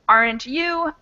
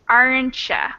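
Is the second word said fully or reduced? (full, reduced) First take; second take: full; reduced. First: The word 'you' is said fully and separately. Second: The words are squished together, 'you' becomes 'ya'. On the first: "Instead of aren't you" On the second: "I say aren't ya"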